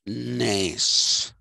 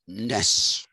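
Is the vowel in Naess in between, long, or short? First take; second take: long; short. First: The vowel is drawn out long. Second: The vowel is short. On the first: "and it is not Arne Naess" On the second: "So it's not Arne Naess"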